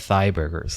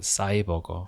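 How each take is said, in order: First: The word begins with a th sound. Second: The word begins with an s sound. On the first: "there's no like exact pronunciation for the th" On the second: "in Korea, we call it 사이버거, as in like Psy"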